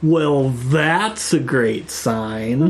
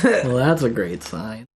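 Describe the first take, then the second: First: It is said with heavy sarcasm. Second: It is said with little sarcasm.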